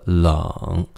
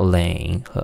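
First: The vowel sounds like 'ung'. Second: The vowel sounds like the spelled 'eng'. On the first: The speaker calls it right. "it sounds like L-U-N-G" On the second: The speaker calls it wrong. "No, it's not 冷"

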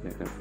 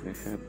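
The two takes are said the same way.

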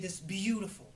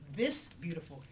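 First: The word beautiful is said with strong emphasis. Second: The word beautiful is said plainly, without emphasis. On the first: The speaker calls it right. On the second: The speaker calls it wrong. "instead of saying"

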